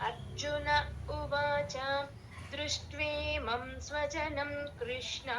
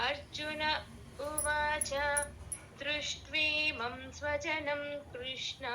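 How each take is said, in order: The two takes are said the same way.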